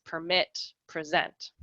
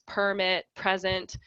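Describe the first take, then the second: First: Permit and present stressed on the second syllable, perMIT, preSENT; verb stress. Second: Permit and present stressed on the first syllable, PERmit, PREsent; noun stress. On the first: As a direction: say permit and present as verbs, perMIT and preSENT, landing on the end. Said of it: "they are verbs like". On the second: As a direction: say permit and present as nouns, PERmit and PREsent with the weight up front. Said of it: "they are nouns like". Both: Shown as a demonstration.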